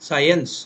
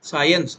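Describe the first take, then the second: No difference in how they are said.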